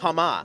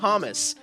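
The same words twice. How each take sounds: First: The H and final S are both silent. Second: The H and final S are both pronounced.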